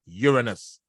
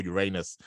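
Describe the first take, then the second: First: "Uranus" said YOOR-uh-nus; Uranus, first-syllable stress. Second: "Uranus" said yoo-RAY-nus; Uranus, second-syllable stress. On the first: Astrologer offers one pronunciation of the planet, "Uranus" as YOOR-uh-nus. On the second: Astrologer offers the other pronunciation of the planet, "Uranus" as yoo-RAY-nus. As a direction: stress the middle of "Uranus", with a long AY. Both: Shown as a demonstration. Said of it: "depending on your pronunciation".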